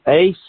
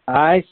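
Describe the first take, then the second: First: The vowel sounds like the one in 'ace'. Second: The vowel sounds like the one in 'ice'. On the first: "You maybe pronounce it ace" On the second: "pronounce it ice, either way"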